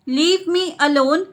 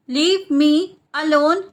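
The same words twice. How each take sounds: First: Said in the usual way. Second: Split repeat. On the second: Shown as a demonstration. Teacher repeats the translation for learners, split in two. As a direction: pause between "Leave me" and "alone".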